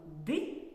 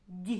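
First: Д as hard, unpalatalized "d"; hard Д sounded alone; hard consonant. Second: Д as palatalized "d'"; soft Д sounded alone; soft consonant. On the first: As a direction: isolate Д with a short dark release. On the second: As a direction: isolate Д with the tongue raised, like "dyi". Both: Shown as a demonstration. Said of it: "вимовимо ці звуки".

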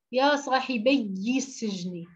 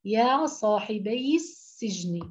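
First: صاحبي said with a doubled ي, slow; صاحبي with the ي stressed and doubled; wrong doubled ya. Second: صاحبي said slowly with a light single ي and kasra; صاحبي with no doubling on the ي; correct single ya. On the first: Teacher showing students the wrong صاحبي, stressed doubled ي. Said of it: "بده يشدها". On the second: Teacher giving students the correct صاحبي, slow and clear. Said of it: "صاحبي بي كسرة". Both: Shown as a demonstration.

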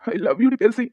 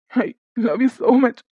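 First: Said in the usual way. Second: Every word of "I love you so much" stretched very slowly; slow drawn-out. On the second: Acted. Husband begs wife, words drawn out very slowly. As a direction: linger on each word, drawn out.

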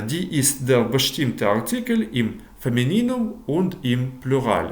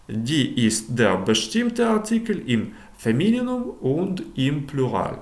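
First: Femininum read again with the stress moved earlier; corrected stress. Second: Femininum stressed on the last syllable; teacher slips, putting the accent late in Femininum; wrong stress. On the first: Teacher rereads the sentence, correcting the stress of Femininum. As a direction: repeat it carefully, fixing the stress in Femininum. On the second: Teacher misstresses Femininum while reading a German sentence. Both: Shown as a demonstration. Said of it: "правильніше наголос ставити фемініном".

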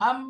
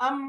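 First: আম with the m held long through the nose; nasal hold on the m of আম; held ghunnah. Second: আম with the m clipped, no nasal hum; আম with an unheld m; short m, no hold. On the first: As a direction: hum the m in আম. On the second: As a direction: say আম quickly without holding the m. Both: Shown as a demonstration. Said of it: "এই দেখেন ধরে রাখলাম না".

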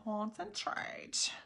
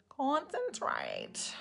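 First: "Concentrate" whispered very slowly with a rise; whispered weird voice. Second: "Concentrate" voiced, very slow and softer, falling; silly voiced take. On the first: Pretend. Makeup streamer clowning while focusing, slow whisper. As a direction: breathe the word out slowly, voiceless. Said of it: "I feel like doing some weird voices tonight". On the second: Makeup streamer trying a weird voice, slow and soft. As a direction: draw the word out in a funny voice. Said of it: "that's the kind of voice I, s-, I feel like saying right now".

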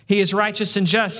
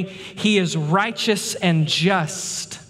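First: Said in the usual way. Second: Drawn out very slowly, each word weighed; slow emphasis. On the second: Acted. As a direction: let every word land, very slow. Preacher stresses God's justice.

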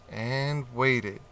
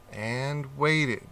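No difference in how they are said.

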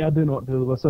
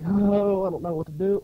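First: Said in the usual way. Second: Put-on dithering, higher at the start; mock helplessness. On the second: Man facing a poser pretends he's stumped, mock helpless. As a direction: pretend to be at a loss. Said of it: "I'm like".

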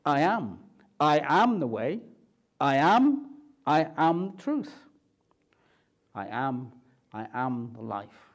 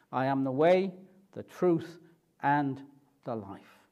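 First: Each I AM stressed, building then fading; emphatic I am. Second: Said in the usual way. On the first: Shown as a demonstration. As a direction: hammer every I am. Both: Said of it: "you could translate it like this".

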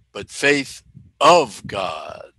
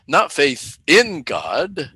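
First: "of" stretched low and slow; stress on of. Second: "in" drawn out and lifted, slow; stress on in. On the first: Preacher correcting the congregation, weight on "of". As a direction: land hard on "of". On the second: Preacher contrasting two kinds of faith, weight on "in". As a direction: lean on "in" to set it apart. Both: Shown as a demonstration.

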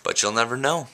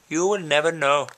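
First: Said in the usual way. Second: Higher, theatrical mock-mysterious line; mock dramatic. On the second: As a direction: tease them like a stage villain.

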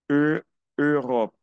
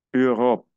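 First: E, Europe slowly, rounded eu stretched; slow French eu. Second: Europe with a rounded eu and uvular r; French Europe. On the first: Teacher slows down Europe for students. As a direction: draw out the eu before Europe. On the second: Teacher models Europe for students. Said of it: "Tengo aquí". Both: Shown as a demonstration.

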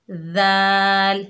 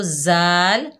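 First: जाल drawn out very slowly, tongue at the teeth; the right जाल, soft and long; correct soft zal. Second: जाल said the wrong, plain Urdu way; quick, ordinary जाल; wrong demo. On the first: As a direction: stretch जाल gently. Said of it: "जा इस तरह अदा करना है". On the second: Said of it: "जा इस तरह करके नहीं पढ़ना". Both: Shown as a demonstration.

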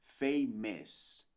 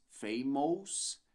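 First: Famous very slow, ending in es, fay-mes; right pronunciation. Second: Famous with ous as ows, fay-mows; wrong pronunciation. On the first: Teacher modelling the correct word, very slow famous. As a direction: draw famous out, ous reduced to es. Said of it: "mas sim". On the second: Teacher showing the spelling trap, slow fay-mows. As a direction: read famous as written, slowly. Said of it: "Não dizemos famous". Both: Shown as a demonstration.

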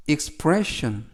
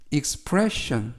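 No difference in how they are said.

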